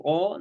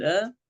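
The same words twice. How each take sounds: First: "آ" as a heavy, rounded "aw"; wrongly thick hamza. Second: "آ" as a light, open a; thin hamza. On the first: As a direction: demonstrate "آ" thickened as a mistake. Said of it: "الهمزة مرققة، لا نقول". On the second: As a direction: keep "آ" thin and unrounded. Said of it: "الهمزة مرققة". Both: Shown as a demonstration.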